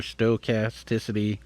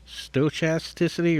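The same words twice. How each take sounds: First: "stochasticity" with a hard k for the ch; k pronunciation. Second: "Stochasticity" with ch as in chat; ch pronunciation. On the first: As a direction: say "stochasticity" as sto-KAS-ticity. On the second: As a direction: say "Stochasticity" as sto-CHAS-ticity. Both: Shown as a demonstration. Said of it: "I don't know how to pronounce it".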